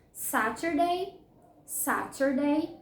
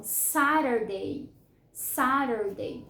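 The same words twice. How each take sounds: First: "Saturday" as SA-ter-day with a hard T; clear T. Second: "Saturday" American style as SA-der-day; American flapped T. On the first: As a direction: sound the T in "Saturday", rising at the end. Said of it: "como eu costumo falar". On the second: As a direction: soften the T of "Saturday" into a quick tap. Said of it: "geralmente os americanos". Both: Shown as a demonstration.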